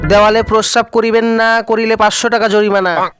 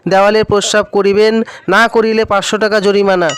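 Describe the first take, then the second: First: The pause comes after না. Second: The pause comes before না.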